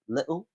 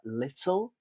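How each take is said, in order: First: The middle consonant is a glottal stop. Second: The middle consonant is a clear t sound.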